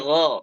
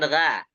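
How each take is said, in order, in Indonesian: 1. Suku kata "gha" diucapkan dengan bunyi tebal dan berat. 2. Suku kata "gha" diucapkan dengan bunyi tipis dan ringan. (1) "gha tebal" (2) "bukan gha"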